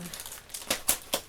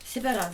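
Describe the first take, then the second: First: Resigned slow whisper to herself. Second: Said in the usual way. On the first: Real, not acted. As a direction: breathe it out, slow and soft. Shrugging it off twice.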